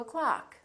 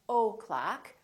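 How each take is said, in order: First: The first O is reduced to uh. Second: The first O is said full. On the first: The speaker calls it right. "Reduce the O in the word o'clock" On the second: The speaker calls it wrong. "don't say at and o'clock"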